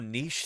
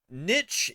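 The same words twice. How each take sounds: First: The word is said the European way. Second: The word is said the American way. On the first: "I often say it in the European way" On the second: "Niche is usually how Americans say it"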